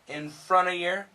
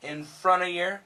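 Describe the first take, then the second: First: The V sound is left out entirely. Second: The V sound is left out entirely.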